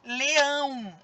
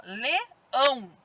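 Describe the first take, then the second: First: Said in the usual way. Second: "leão" slowly split into le and ão; syllable by syllable. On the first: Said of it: "ó, leão". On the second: Shown as a demonstration. Teacher showing which part is stronger, syllable by syllable. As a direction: pause between the two syllables of "leão". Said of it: "O ão sai mais forte".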